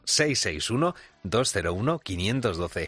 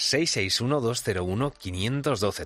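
First: The number is read more slowly. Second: The number is read at normal speed.

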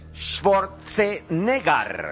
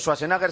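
First: The name is pronounced in a German style. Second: The name is pronounced in a Spanish style. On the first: The speaker calls it right. "sino Schwarzenegger" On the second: The speaker calls it wrong. "no se dice Schwarzenegger"

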